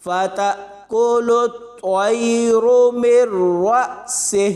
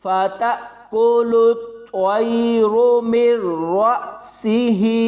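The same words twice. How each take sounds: First: Slow chant ending in a short closed सेह; measured tajweed, final से cut short, no long ही; waqf stopping form. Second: Slow recitation ending on a long-held सी ही; measured tajweed, jolts on ता and रा, ही drawn out; full continuous reading. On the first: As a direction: recite it, stopping on से with a breathed h. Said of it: "वक्फ करना है तो फिर ऐसे". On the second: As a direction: chant it with heavy त्वा and रा, stretching final ही. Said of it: "रा पुर यानी मोटी". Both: Shown as a demonstration.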